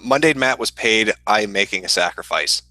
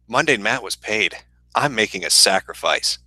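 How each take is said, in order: First: It is read plainly, without drama. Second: It is read in a dramatic manner.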